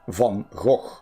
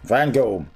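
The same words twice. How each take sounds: First: The name is said the harder, original way. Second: The name is said the simpler, easier way. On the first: The speaker calls it right. "Or actually" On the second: The speaker calls it wrong. "obviously that's easier to pronounce"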